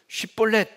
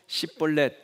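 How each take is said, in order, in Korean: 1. 이 단어는 'sh' 소리로 시작해요. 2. 이 단어는 's' 소리로 시작해요. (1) "발음을 쉽볼렛 해봐라" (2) "에브라임 사람들은 쉽볼렛 이걸 못하고 십볼렛 이렇게 한단 말이에요"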